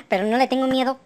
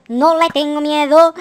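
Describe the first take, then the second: First: Said in the usual way. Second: Slow, drawn-out chanted bravado; stretched, half-sung declaration of courage; sung, defiant singsong. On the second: Pretend. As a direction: sing it out with long held vowels. Repeat chanted bravely.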